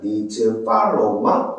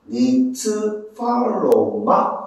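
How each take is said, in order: First: The phrase is said quickly. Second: The phrase is said at a normal speed.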